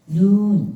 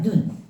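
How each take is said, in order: First: The vowel is held long. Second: The vowel is held short. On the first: It means snow. "하늘에서 내리는 눈은 눈 이렇게 길게" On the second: It means the eye. "우리 보는 눈은 짧게 발음해요"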